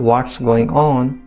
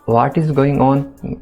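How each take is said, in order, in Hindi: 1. 'What is' को छोटा करके एक शब्द की तरह बोला जाता है। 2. 'What is' को दो पूरे शब्दों की तरह बोला जाता है। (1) "शॉर्ट में बोलते हैं ना" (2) "इससे सेंटेंस बड़ा हो जाता है"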